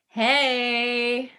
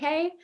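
First: It is said in a low voice. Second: It is said in a very high voice.

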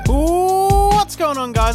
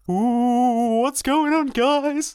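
First: It is said in a normal voice. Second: It is said in a spooky voice.

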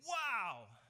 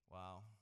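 First: It is said with loud excitement. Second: It is said with bored indifference.

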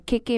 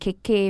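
First: The first vowel is long. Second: The second vowel is long. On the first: It means cake. "keke meaning cake" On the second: It means a creaking sound. "keke meaning creek"

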